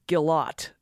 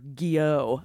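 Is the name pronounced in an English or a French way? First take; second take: English; French. First: The name is pronounced in an English way. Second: The name is pronounced in a French way.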